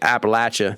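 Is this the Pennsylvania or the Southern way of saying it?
Southern. It is said the Southern way.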